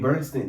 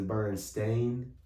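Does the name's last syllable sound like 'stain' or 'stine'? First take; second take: stine; stain. First: The last syllable sounds like 'stine'. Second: The last syllable sounds like 'stain'. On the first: This is how the name is usually said. The speaker calls it wrong. "literally Bernstein. That's that is what we call them" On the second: This is how the name is supposedly really said. The speaker calls it right. "apparently it's Bernstein"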